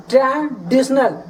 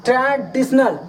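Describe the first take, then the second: No difference in how they are said.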